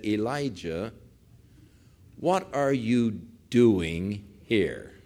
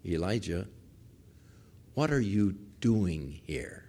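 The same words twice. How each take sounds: First: Very slow, measured question; solemn divine question. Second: Still small voice. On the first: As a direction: draw each word out with pauses between. Voices God questioning Elijah in cave. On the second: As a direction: ask it gently, hushed and unhurried. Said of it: "a still small voice". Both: Retold or imitated.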